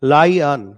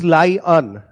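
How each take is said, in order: The two takes are said the same way.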